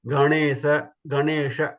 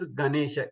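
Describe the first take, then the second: First: "Ganesha" with a curled-tongue n; retroflex nasal. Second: "Ganesha" with a flat dental n. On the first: Teacher showing the correct sound, retroflex n in "Ganesha". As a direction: curl the tongue back on the n of "Ganesha". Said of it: "they Ra and Na". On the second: Teacher imitating people's mistake, flat n in "Ganesha". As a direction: keep the tongue flat on the n of "Ganesha". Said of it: "normal flat na". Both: Shown as a demonstration.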